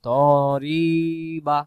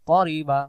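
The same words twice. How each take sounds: First: The vowel after the r is drawn out. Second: The vowel after the r is kept short. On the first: The speaker calls it wrong. "হবে না, তখন র অক্ষর টান হয়ে যাবে" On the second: The speaker calls it right. "তাহলে আমরা বলবো"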